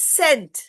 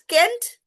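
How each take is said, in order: First: The word begins with an s sound. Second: The word begins with a k sound. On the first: The speaker calls it right. "It's scent" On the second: The speaker calls it wrong. "Is it Kent?"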